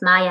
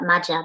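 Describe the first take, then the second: First: The middle consonant is a Y sound. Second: The middle consonant is a J sound. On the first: The speaker calls it right. "pronounced Maya" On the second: The speaker calls it wrong. "not Maja because J in German is like Yi"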